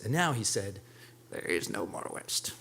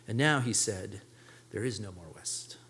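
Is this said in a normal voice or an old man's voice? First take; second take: old man's; normal. First: It is said in a put-on old man's voice. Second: It is said in a plain, normal voice.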